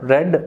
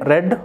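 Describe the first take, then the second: First: The vowel is a short e sound. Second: The vowel is a short e sound.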